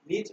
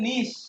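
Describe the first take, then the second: First: The word ends with a 'ch' sound. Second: The word ends with an 'sh' sound. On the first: The speaker calls it wrong. "নিচ বলা হয় না" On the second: The speaker calls it right. "এটার উচ্চারণ হবে নিশ"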